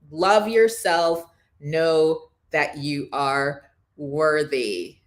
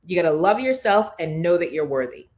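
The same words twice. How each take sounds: First: "Love yourself, know that you are worthy" slowly, phrase by phrase; drawn-out stress through "Love yourself, know that you are worthy"; slow emphatic repeat. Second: Said in the usual way. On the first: Real, not acted. Slow closing repeat of key message.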